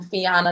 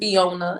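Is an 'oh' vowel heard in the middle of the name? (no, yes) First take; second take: no; yes. First: The name is said without an 'oh' vowel. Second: The name is said with an 'oh' vowel. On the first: The speaker calls it right. "That's how you pronounce my name" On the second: The speaker calls it wrong. "people pronounce it Fiona, and I don't see no O"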